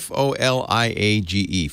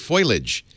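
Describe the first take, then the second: First: The first part sounds like 'fo-lee'. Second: The first part sounds like 'foy'. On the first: The speaker calls it right. "Jack's got to say it right" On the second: The speaker calls it wrong. "a lot of people say foliage"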